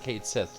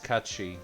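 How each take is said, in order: First: It is said like 'kate sith'. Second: It is said like 'cat shee'. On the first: The speaker calls it wrong. "I used to pronounce it Kate Sith like everyone else" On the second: The speaker calls it right. "why we're pronouncing that that way, it's an actual Celtic term"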